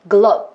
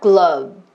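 First: The word ends abruptly with no lip vibration. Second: The word ends with a voiced, lingering lip vibration. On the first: The speaker calls it wrong. "이게 아니라" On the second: The speaker calls it right. "입술의 진동을 느끼고 끝나는 거예요"

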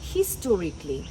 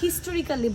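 First: The 'al' syllable is dropped before 'ly'. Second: The extra 'al' syllable is pronounced before 'ly'. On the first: The speaker calls it right. "So এটাকে বলতে হবে" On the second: The speaker calls it wrong. "আমরা হিস্টোরিক্যালি বলে থাকি"

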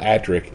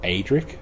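First: The name is pronounced the British way. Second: The name is pronounced the American way. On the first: This is how the name is said in the series. The speaker calls it right. "there's episodes of Doctor Who where he's called Adric" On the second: This is how some viewers read the name from text. The speaker calls it wrong. "it's even worse when you hear Americans say Adric, and they call it Adric"

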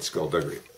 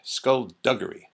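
First: The middle g is a soft j sound. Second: The middle g is a hard g sound. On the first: "in Balmer, we said skullduggery" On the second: "The G is hard"

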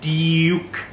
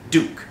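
First: A y sound comes before the vowel: dyook. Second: There is no y sound before the vowel: dook. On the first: "มันจะมีเสียงของยอยักษ์อยู่" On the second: "แบบสำเนียงอเมริกันนะครับ"

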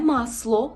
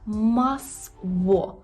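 First: The middle consonant is a hard l sound. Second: The middle consonant is a rounded w sound. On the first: The speaker calls it wrong. "Не масло, це не є «л»" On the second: The speaker calls it right. "Це є «в»"

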